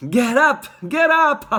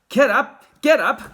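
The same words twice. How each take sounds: First: Even higher, loud squeal of glee; a louder, sillier repeat of the call; laughing cry. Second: Loud, high gleeful call; laughing cry. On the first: Wonka repeating his gleeful call, higher and louder. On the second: Wonka calling to the fallen passengers, loud and amused. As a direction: shout it out, amused by the tumble. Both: Acted. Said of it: "cried Mister Wonka, roaring with laughter".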